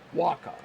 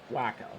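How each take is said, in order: First: The first syllable sounds like 'wah', as in guacamole. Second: The first syllable sounds like 'whack', as in whack-a-mole. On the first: The speaker calls it right. "it's got to be guacamole because you pronounce his name Waka" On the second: The speaker calls it wrong. "not Waka"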